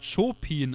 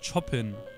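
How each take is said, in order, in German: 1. Der erste Vokal ist lang, einfacher Konsonant. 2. Der erste Vokal ist kurz, doppelter Konsonant. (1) "er wird bestimmt Chopin ausgesprochen" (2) "und nicht Chopin. Weil das wäre mit Doppel-P"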